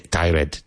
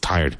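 First: The word is said as two syllables. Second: The word is said as one syllable. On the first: The speaker calls it wrong. "So many students say tired. No" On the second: The speaker calls it right. "One syllable, always tired"

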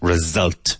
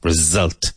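First: The middle consonant is a buzzing z sound. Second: The same.

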